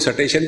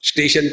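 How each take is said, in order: First: A vowel breaks up the opening st cluster. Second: It begins with a tight st cluster. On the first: How a Punjabi speaker says it. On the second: The standard pronunciation.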